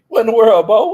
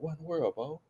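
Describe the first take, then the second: First: It sounds like a friendly, casual greeting. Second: It sounds worried and concerned.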